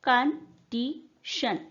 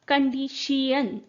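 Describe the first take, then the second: First: The word is said with three syllables. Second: The word is said with four syllables. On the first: "this is a three syllable word." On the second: "it was a four syllable word in Middle English"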